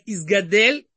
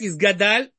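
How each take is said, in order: First: The last syllable has an 'e' vowel. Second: The last syllable has an 'a' vowel. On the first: "с эй на конце" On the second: "с а на конце"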